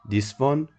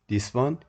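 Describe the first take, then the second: No difference in how they are said.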